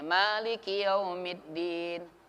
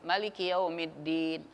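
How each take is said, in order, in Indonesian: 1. Vokal setelah m panjang. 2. Vokal setelah m pendek. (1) "bisa ma-nya panjang" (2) "bisa ma-nya pendek"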